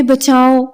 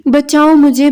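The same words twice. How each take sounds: First: Screaming for help. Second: High, loud fake scream for help. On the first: Cousin keeps up her fake cry, screaming "بچاؤ". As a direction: keep crying "بچاؤ" out as the scream runs on. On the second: Cousin fakes an assault, screaming for help. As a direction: shriek it to fool the household. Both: A narrator's reading. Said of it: "اس قدر زور سے چیختے ہوئے کہا تھا".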